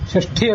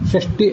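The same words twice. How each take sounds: First: The middle consonant is aspirated. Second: The middle consonant is unaspirated. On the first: It means sixth. The speaker calls it wrong. "ಮಹಾಪ್ರಾಣ ಆಗಬಾರ್ದು" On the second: It means sixty. The speaker calls it right. "ಅಲ್ಪ ಪ್ರಾಣ ಆಗಬೇಕು"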